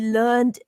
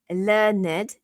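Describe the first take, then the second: First: The word is said as one syllable. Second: The word is said as two syllables. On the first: It is the past tense of the verb. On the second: It is an adjective describing someone.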